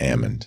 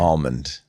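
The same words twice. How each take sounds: First: The L sound is silent in the word. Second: The L sound is pronounced in the word. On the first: The speaker calls it wrong. "not almond" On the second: The speaker calls it right. "I don't like silent letters"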